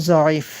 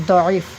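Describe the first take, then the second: First: "জয়ীফ" begun with a buzzing z; Urdu dwad as z. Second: "দয়ীফ" begun with a heavy d; Arabic dwad sound. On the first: Teacher showing the Urdu reading, "জয়ীফ" with initial z. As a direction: say "জয়ীফ" with zo, not do. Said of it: "এটাকে আমরা জয়ীফ পড়ি". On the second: Teacher showing the Arabic reading, "দয়ীফ" with heavy d. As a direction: say "দয়ীফ" with do, not zo. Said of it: "দয়ীফ পড়লে মনে হবে আপনি আরবি". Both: Shown as a demonstration.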